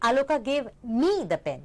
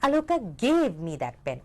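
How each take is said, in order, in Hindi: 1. ज़ोर शब्द 'me' पर है। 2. ज़ोर शब्द 'pen' पर है। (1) "यानी कि किसी और को" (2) "उन्होंने मुझे पेन दे दिया और कुछ नहीं"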